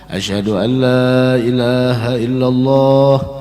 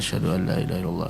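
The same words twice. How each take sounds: First: It is said in a loud, raised voice. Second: It is said in a soft, quiet voice.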